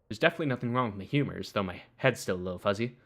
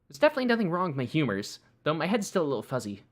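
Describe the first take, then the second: First: The voice is pitched lower. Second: The voice is pitched higher.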